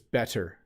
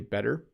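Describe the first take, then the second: First: The T in the middle is a hard, crisp T. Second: The T in the middle is a soft flap. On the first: The speaker is stressing a point. "I do say better sometimes with a hard T when I want to make a point" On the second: This is the everyday way of saying it. "ninety-nine percent of the time I say better"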